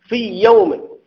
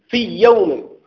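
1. تندمج أصوات الياء في ياء واحدة مشددة. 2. تندمج أصوات الياء في ياء واحدة مشددة.

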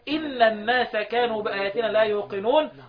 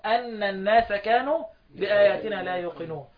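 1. الكلمة الأولى تبدأ بصوت 'i'. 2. الكلمة الأولى تبدأ بصوت 'a'. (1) "عكس الفتح ايه؟ الكسر" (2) "الكوفيون في الموضعين بفتح"

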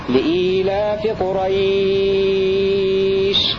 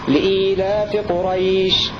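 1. يُمدّ حرف المد في الكلمة الأخيرة ست حركات. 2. يُمدّ حرف المد في الكلمة الأخيرة حركتين. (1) "المد ست حركات" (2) "حركتين"

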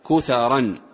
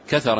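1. الحرف الأول بالضمة، والثاني بالفتحة. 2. الحرفان الأولان كلاهما بالفتحة. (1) "بضم الكاف وفتح المثلثة" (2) "بفتحتين"

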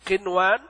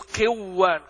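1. يُنطق صوت النون بوضوح قبل الواو. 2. تندمج النون في صوت واو مشددة.

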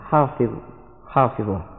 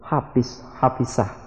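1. Konsonan itu diucapkan dengan lafal bahasa Arab baku. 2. Satu konsonan diucapkan dengan lafal dialek daerah. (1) "padahal yang sebenarnya adalah" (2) "dalam penyebutan sehari-hari mereka selalu menyebut"

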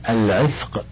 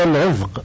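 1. الحرف الأوسط صوت 'th' مهموس. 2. الحرف الأوسط صوت 'dh' مجهور. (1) "والعامة تقول العذق بالثاء" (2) "بالذال"

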